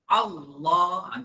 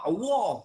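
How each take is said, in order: First: The L sound is thick and heavy. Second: The L sound is thin and light. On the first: The speaker calls it right. "ditebalkan lam" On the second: The speaker calls it wrong. "Bukan Allah"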